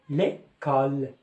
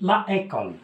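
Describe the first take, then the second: First: The article's vowel is dropped before the noun. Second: The article's vowel is kept before the noun. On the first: The speaker calls it right. "Et je lis l'école" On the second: The speaker calls it wrong. "في الأصل كتكتب la école"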